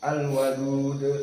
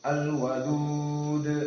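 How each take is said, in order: First: The final long vowel is held only briefly. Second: The final long vowel is held moderately long. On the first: "dua harokat" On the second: "Kalau dibaca dalam keadaan tawassut empat"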